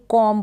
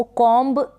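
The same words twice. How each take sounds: First: कॉम ending on m, no b; कॉम with the final b left silent. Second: कॉम्ब with an audible b at the end; wrong sounded B. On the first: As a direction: say कॉम and stop on the m. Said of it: "बी silent है". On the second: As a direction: say कॉम्ब, releasing a b after the m. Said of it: "इसको कॉम्ब नहीं पढ़ेंगे". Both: Shown as a demonstration.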